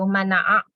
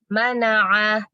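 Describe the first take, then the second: First: The word ends with a sharp glottal catch. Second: The word ends smoothly without a glottal catch. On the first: The speaker calls it wrong. "Jangan a gitu" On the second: The speaker calls it right. "Tapi mana'a ya Bu"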